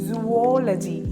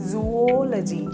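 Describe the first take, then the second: The two takes are said the same way.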